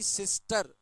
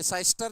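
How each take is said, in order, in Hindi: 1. पहला स्वर छोटी 'i' ध्वनि है। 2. पहला स्वर 'eye' ध्वनि है। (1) "तो ये सी है" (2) "साइस्टर नहीं है ये"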